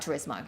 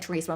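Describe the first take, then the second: First: It is said without rhyming with chorizo. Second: It is said rhyming with chorizo. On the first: "but it might be Gran Turismo" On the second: "I like saying Turismo like chorizo"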